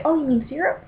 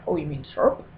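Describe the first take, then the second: First: "syrup" as SEER-up, high questioning rise; correcting syrup. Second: "syrup" as SURP, lower questioning voice; corrected syrup. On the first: Acted. Correcting other people, "syrup" as SEER-up. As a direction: correct them with two-syllable "syrup", SEER-up. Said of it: "find myself correcting other people". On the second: Retold or imitated. Other person correcting me, "syrup" as SURP. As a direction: correct them with one-syllable "syrup", SURP. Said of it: "the other person's like".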